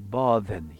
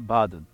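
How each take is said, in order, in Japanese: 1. 古い時代の発音で言います。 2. 現代の発音で言います。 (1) "この当時の発音でburden" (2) "今日は重荷っていうのをburden と言いますね"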